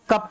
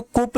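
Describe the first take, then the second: First: कप with a short open a, like Hindi kap; correct cup. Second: कुप with a full u vowel, like Hindi kup; wrong vowel cup. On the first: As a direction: say कप with a short a sound, the right way. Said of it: "इसको कप पढ़ेंगे". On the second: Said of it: "इसको कुप नहीं पढ़ेंगे". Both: Shown as a demonstration.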